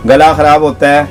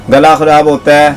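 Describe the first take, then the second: No difference in how they are said.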